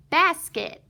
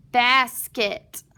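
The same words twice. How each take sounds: First: Said in the usual way. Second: "Basket" said in two separate parts, bas, then ket; split syllables. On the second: Shown as a demonstration. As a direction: break "Basket" after bas, pronouncing each part fully. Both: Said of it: "let's read the whole word".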